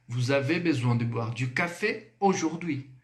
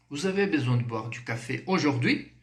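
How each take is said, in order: First: French statement falling at the end of "aujourd'hui"; statement intonation. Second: French question going up at the end of "aujourd'hui"; rising question. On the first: Teacher models French affirmation for learners, falling tune on "aujourd'hui". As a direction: drop the pitch on "aujourd'hui" to affirm. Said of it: "É a mesma entonação". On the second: Teacher shows learners a French question, rising on "aujourd'hui". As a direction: raise the pitch on final "aujourd'hui". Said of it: "Subiu. Pergunta". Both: Shown as a demonstration.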